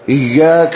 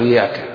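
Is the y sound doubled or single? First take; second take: doubled; single. First: The y sound is doubled and held. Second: The y sound is short and single. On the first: It means 'you alone'. The speaker calls it right. "تشدد" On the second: It means sunlight, not 'you alone'. The speaker calls it wrong. "لا تقول إياك"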